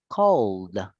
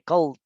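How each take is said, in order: First: The word ends with a D sound. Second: The word ends with a T sound. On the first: The speaker calls it right. "si lo pronuncio con una D" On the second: The speaker calls it wrong. "con una T"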